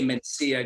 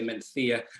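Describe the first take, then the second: First: It is said with a Latin American Spanish accent. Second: It is said with a Spanish accent from Spain. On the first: "I speak Spanish with a Latin American accent" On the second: "Gregory will probably say Mencía"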